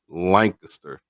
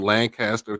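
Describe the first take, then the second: First: It uses the local Texas pronunciation. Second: It uses the widespread general pronunciation. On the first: This is how the Texas town is named locally. "here in Texas we say it Lancaster" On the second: This is how the California and Pennsylvania towns are named. "most people say Lancaster"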